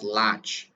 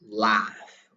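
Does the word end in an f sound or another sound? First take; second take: another sound; f sound. First: The word ends without an f sound. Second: The word ends with an f sound. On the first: The speaker calls it wrong. "Most people they pronounce lach" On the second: The speaker calls it right. "but we pronounce laugh"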